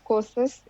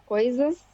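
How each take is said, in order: First: The first vowel is a plain o without glide. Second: The first vowel glides from o to i. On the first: The speaker calls it wrong. "em vez de falar coisas, é, se fala coças" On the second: The speaker calls it right. "a gente fala coisas"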